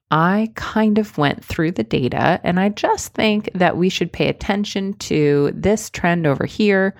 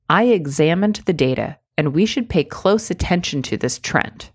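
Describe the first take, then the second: First: Weak hedging. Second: Firm, direct statement with no hedges; confident. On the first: Coach demoing the weak version for viewers. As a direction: say it like you doubt yourself. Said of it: "listen to the difference". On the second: Coach demoing the strong version for viewers. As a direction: say it like you mean it. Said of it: "listen to this". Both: Shown as a demonstration.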